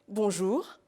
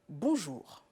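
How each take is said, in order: First: It is said at a medium pitch. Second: It is said at a low pitch.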